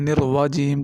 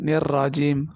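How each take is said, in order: First: A w sound is heard after the r. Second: A plain r is heard with no w sound. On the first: The speaker calls it wrong. "लोग वाव की आवाज़ देते हैं, ये सरासर गलत है" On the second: The speaker calls it right. "निर्राजीम पढ़ना"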